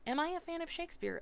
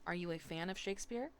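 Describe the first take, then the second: First: High, quick British echo of a question; British accent. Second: Said in the usual way. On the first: A narrator's reading. New pupil repeating teacher's question with relish, British accent. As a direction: throw the question back, higher, in a British accent. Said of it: "still speaking in my British accent".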